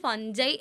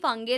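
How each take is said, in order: First: The middle consonant is a J sound. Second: The middle consonant is a hard G sound. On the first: This is how some other people say it. "ചിലർ ഫഞ്ചൈ എന്ന് pronounce ചെയ്യും" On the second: This is how the speaker usually says it. "ഞാൻ usually ഫംഗൈ എന്നാണ് പറയുക"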